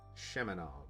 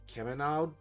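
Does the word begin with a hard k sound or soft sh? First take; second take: soft sh; hard k. First: The word begins with a soft sh sound. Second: The word begins with a hard k sound. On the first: The speaker calls it right. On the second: The speaker calls it wrong.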